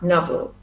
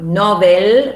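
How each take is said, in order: First: The second syllable has a schwa. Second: The second syllable has a full vowel. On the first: The speaker calls it right. "but novel with the schwa" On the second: The speaker calls it wrong. "It's not novel"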